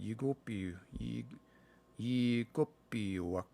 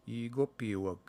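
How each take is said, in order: First: Slow sounding out. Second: Said in the usual way. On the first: Shown as a demonstration. Learner slowly sounding out an unfamiliar Cree word. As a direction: sound out yigopiwak slowly, syllable by syllable. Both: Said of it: "I don't know this word".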